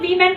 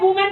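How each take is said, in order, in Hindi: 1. पहला अक्षर 'wi' जैसा सुनाई देता है। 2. पहला अक्षर 'woo' जैसा सुनाई देता है। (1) "उसको वीमेन पढ़ते हैं" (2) "वुमेन पढ़ेंगे"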